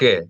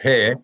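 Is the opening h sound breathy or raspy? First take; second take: raspy; breathy. First: The h is a harsh, raspy throat sound. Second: The h is a soft breath without friction. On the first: The speaker calls it wrong. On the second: The speaker calls it right.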